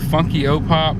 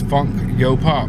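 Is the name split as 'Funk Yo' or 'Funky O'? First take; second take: Funky O; Funk Yo. First: The name is split as funky, o, pop. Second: The name is split as funk, yo, pop. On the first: The speaker calls it wrong. "some people mispronounce it" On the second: The speaker calls it right. "It is Funk Yo Pop"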